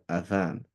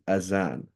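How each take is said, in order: First: The middle consonant is a th sound. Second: The middle consonant is a z sound. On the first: This is the Arabic word. "When we're speaking Arabic, we can call it adhan" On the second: This is the English word. "So when we're speaking English, we should say azan"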